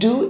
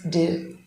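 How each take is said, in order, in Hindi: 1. स्वर पूर्ण, स्पष्ट 'oo' ध्वनि है। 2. स्वर घटकर हल्का schwa रह जाता है। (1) "It's not do" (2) "the schwa sound"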